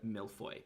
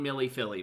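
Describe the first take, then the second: First: The name is said with a French pronunciation. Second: The name is said as an Australian 'Millie Philly'. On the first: The speaker calls it wrong. "You'll be laughed at if you try to pronounce it in French" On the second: The speaker calls it right. "They will understand you"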